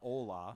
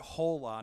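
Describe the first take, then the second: First: The word begins directly with the vowel. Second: The word begins with an audible h sound. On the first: "not ola" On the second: "They actually pronounced it hola, I love the emphasis on the H"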